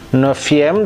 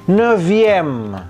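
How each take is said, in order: First: The consonant before the ending is an f sound. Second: The consonant before the ending is a v sound. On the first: The speaker calls it wrong. "bukan neuvième" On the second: The speaker calls it right. "dirubah menjadi V"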